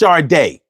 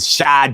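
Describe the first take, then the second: First: The name is said as 'shar-day'. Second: The name is not said as 'shar-day'. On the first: The speaker calls it right. "it's pronounced Sade" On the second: The speaker calls it wrong. "Y'all be killing me with Sade"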